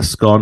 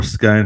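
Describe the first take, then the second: First: "scone" rhyming with "gone"; short-O "scone". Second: "scone" rhyming with "bone"; long-O "scone". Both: Shown as a demonstration. However it's pronounced.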